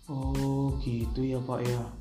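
It is said with empathetic, emotional intonation.

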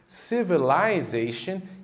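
It is said with a British accent. "Já no Reino Unido, essas mesmas palavras teriam a seguinte pronúncia"

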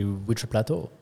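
Plateau is said with an English accent. "I tried to say it with the English accent"

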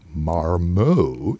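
It is said in a put-on French accent.

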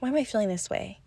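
The question sounds harsh and judgmental. She is criticizing herself for the feeling. The speaker calls it wrong. "from a place of judgment"

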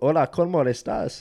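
It is said with an exaggerated native accent. "You don't have to go, ... You don't have to do that"

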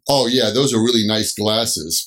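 It sounds mocking and sarcastic.

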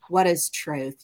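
It is said as a hopeless flat statement.

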